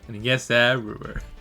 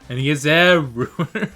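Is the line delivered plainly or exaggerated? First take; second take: plainly; exaggerated. First: The line is delivered plainly. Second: The line is delivered in an exaggerated way.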